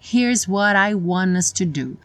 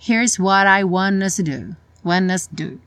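First: The word 'to' is fully pronounced. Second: The word 'to' is almost completely dropped. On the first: "não ficou" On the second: "Ficou, ... houve uma redução forte"

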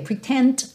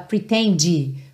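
First: The word stops on the D with no vowel. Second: An extra vowel is added after the final D. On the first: The speaker calls it right. "para no D" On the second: The speaker calls it wrong. "uma vogal depois dessa consoante... não faça isso"

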